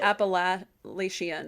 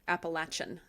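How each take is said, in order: First: The middle consonant is not a 'ch' sound. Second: The middle consonant is a 'ch' sound.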